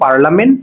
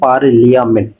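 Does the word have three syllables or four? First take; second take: three; four. First: It is said as par-la-ment, three syllables. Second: It is said as par-li-a-ment, four syllables. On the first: This is how the word is normally pronounced. "তাহলে এটা উচ্চারণ করব পার্লামেন্ট" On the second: This helps in remembering the spelling. "বানানের মনে রাখার সুবিধাতে পার্লিয়ামেন্ট"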